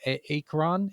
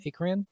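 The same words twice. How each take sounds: First: "A-, Akron?" tried hesitantly as AY-kron with a rising, questioning end; unsure pronunciation. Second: "Akron?" said as AY-kran, pitched higher and rising like a question; retry the name Akron, still unsure; second try at pronunciation. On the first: Reading the cast list, unsure how to say Akron. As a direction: stumble into the name Akron, testing it. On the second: Host retries an unfamiliar cast name, questioning. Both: Shown as a demonstration. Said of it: "I don't know how to say".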